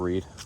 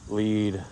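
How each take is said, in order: First: The word begins with an R sound. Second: The word begins with an L sound. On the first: "like that instead of read" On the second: "so it just comes out L"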